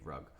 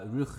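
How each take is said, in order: First: It is said with a plain simplified pronunciation. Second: It is said with the local pronunciation. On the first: "or you could just say Rug" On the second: "that's how they pronounce it over there"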